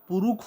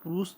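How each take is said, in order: First: The word ends with a kh sound. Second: The word ends with an sh sound. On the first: This is the Nagpuri form. "ख हो जाता है" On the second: This is the standard Hindi form. "पुरुष जगह"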